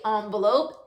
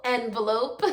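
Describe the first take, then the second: First: "envelope" said with an ah first vowel, "ahn-velope"; ahn-velope pronunciation. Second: "envelope" said with a short e, "en-velope", ending in a laugh; short eh first sound in "envelope"; en-velope pronunciation. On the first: Teacher contrasting regional ways to say envelope, ahn sound. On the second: Teacher switching to the eh way of saying envelope, laughing. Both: Shown as a demonstration. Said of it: "some people say envelope".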